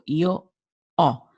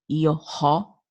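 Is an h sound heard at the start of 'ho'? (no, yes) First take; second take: no; yes. First: No h sound; the word starts with open o. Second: The h sound is pronounced before the vowel. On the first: The speaker calls it right. "The O is open" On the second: The speaker calls it wrong. "we don't pronounce the H, so it is not io ho"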